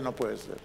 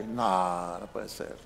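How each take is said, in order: First: Soft, low, stunned murmur; hushed low amazement; disbelieving under breath. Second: Hushed, near-whispered disbelief; low stunned half-whisper; disbelieving under breath. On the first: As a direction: let it fall away in quiet disbelief. Pastor's retold disbelief again. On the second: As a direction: mutter it in quiet amazement. Pastor's retold disbelief. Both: Retold or imitated.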